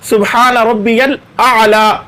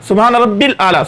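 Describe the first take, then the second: First: It is said fully with the middle 'ya' kept. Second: It is rushed and the middle 'ya' is dropped. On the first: The speaker calls it right. "तो सही अल्फाज ये है" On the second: The speaker calls it wrong. "इस तरह जल्दी जल्दी पढ़ते हैं, दरमियान से या को छोड़ देते हैं।"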